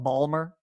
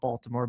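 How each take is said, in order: First: It is said in a clipped Baltimore accent. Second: It is said in a standard full pronunciation.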